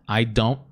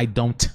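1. O T no final é retido, sem liberação. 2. O T no final é totalmente liberado. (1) "segura e já vai pro wanna" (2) "Você não vai falar I don't wanna"

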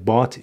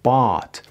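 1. مصوت کوتاه و بریده است. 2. مصوت بلند و کشیده است. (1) "اینم غلطه" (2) "چون آی بلند و آی کشیده است"

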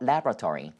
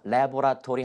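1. 단어에서 음절 하나가 빠집니다. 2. 모든 음절을 다 발음합니다. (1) "음절 하나 줄여지나요" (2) "laboratory 하지 않고"

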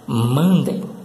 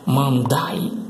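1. A última sílaba soa como 'dem'. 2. A última sílaba soa como 'die'. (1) "A pronúncia certa é mandem" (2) "não se pronuncia dessa forma aí, não"

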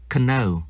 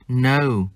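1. Chữ k ở đầu được phát âm. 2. Chữ k ở đầu là câm. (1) "không đọc là know" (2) "chúng ta không phát âm chữ K"

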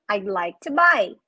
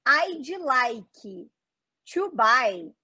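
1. As palavras são ditas juntas e reduzidas. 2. As palavras são ditas separadamente e completamente. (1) "muito mais junto e muito mais reduzido do que isso" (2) "fica muito ruim da pessoa te entender"

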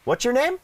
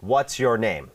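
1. ระดับเสียงขึ้นตอนท้ายของคำถาม 2. ระดับเสียงขึ้นตอนกลาง ไม่ใช่ตอนท้าย (1) "แสดงว่าสับสน" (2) "มันก็ขึ้นตอนกลางประโยค"

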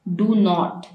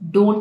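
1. इसे दो पूरे शब्दों के रूप में बोला जाता है। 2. इसे एक संकुचित शब्द के रूप में बोला जाता है। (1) "ये हमारे पास स्ट्रॉन्ग फॉर्म है इसकी" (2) "तो ये हमारे पास इसकी वीक फॉर्म आ गई है"

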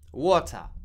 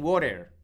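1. Se dice con acento británico. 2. Se dice con acento americano. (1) "Un británico dice water" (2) "te vas de viaje a Nueva York y te dicen water"

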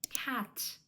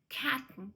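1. Кінцеве t вимовляється з легким видихом повітря. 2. Кінцеве t зупиняється, і повітря не видихається. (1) "В кінці слова воно навіть занадто сильно вимовляється" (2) "А так ми кажемо cat"

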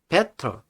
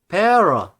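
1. 가운데 자음은 확실한 T 소리예요. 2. 가운데 자음은 R 소리에 가까워요. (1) "TDR 법칙이라고 해서" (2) "이렇게 해도 다 맞다는 거"

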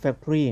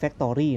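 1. ออกเสียงตามสำเนียงอังกฤษแท้ครับ 2. อ่านสะกดทีละตัวอักษรแบบไทยครับ (1) "ตามการออกเสียงของภาษาอังกฤษเป๊ะๆนะฮะมันจะออกเสียงว่า" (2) "แต่คนไทยจะอ่านแบบตรงตัวอักษรไง"

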